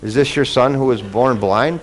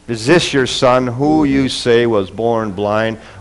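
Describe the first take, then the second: First: It is said as a plain, neutral question. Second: It is said with a spiteful, mocking tone.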